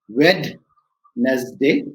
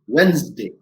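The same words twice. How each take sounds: First: The word is said with three syllables. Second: The word is said with two syllables. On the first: This is how many non-native speakers say it. "Many of us pronounce it as Wednesday" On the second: This is how native speakers say it. "a native speaker, he or she will go as Wednesday ... it's got two syllables"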